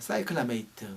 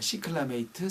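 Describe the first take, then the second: First: The first syllable is pronounced 'sai'. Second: The first syllable is pronounced 'si'. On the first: "사이클라" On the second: "시클라 뭐 이렇게도 발음을 해서"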